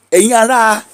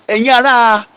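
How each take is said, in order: Both takes have the same delivery.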